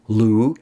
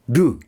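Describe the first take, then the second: First: The syllable begins with a light L sound. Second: The syllable begins with a quick tongue tap. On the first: The speaker calls it wrong. "L is too light" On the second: The speaker calls it right. "Put those two together and you get do"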